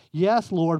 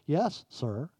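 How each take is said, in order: First: Said in the usual way. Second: "sir" said in place of "Lord", softly; corrected word. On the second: Shown as a demonstration. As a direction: say "Yes, sir." as the corrected wording, quieter. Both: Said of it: "that word ought to be sir".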